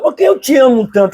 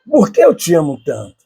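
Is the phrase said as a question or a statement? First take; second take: question; statement. First: It is said with a questioning tune. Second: It is said with a statement tune. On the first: It asks why the love is so great. "olha a pergunta" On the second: It gives the love as the reason. "você pode utilizar a mesma frase"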